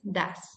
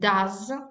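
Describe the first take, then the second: First: The vowel is reduced and unstressed. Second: The vowel is full and clearly stressed. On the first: It is a helping word. "As a weekend form, this is does" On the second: It is the main verb of the action. "As a strong form, we should pronounce it like does"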